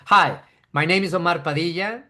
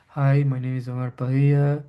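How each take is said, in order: First: Every word is crisply and clearly articulated. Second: The words are slurred and poorly articulated. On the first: The speaker calls it right. "You want to be clear and you want to enun- enunciate, articulate properly" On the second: The speaker calls it wrong. "Not like"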